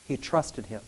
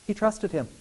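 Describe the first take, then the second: First: Repeated much softer and lower; soft echo. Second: Said in the usual way. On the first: Shown as a demonstration. Preacher echoing his point to the church, softer and lower. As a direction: let it sink in, hushed.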